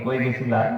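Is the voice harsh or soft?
soft. It is said in a soft, sweet voice. A mother speaks lovingly to her child. "এইভাবে বলে না কর্কশ আওয়াজে বলে?"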